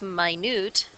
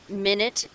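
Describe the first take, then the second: First: The stress is on the second syllable. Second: The stress is on the first syllable. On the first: It means something very small. "then put a 2 after it" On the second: It means a unit of time. "if it's with a 1 after it"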